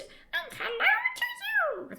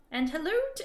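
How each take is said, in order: First: High, tiny fairy voice for "hello"; tiny creature. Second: Said in the usual way. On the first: Acted. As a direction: squeak it like a little sprite. Restarts line as creature. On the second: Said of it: "retake in creature voice".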